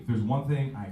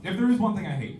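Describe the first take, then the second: First: Said in the usual way. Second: Ramp up high and loud on the build; louder, higher outburst; loud rant opener. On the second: Real, not acted. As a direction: launch the pet-peeve rant.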